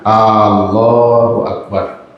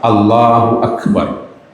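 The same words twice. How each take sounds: First: The opening vowel is drawn out long. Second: The opening vowel is kept short. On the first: It asks whether God is the greatest. The speaker calls it wrong. "kekeliruan pertama adalah memanjangkan bacaan A-nya" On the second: It states that God is the greatest. The speaker calls it right. "Yang benar adalah Allahu Akbar. Jangan dipanjangkan A"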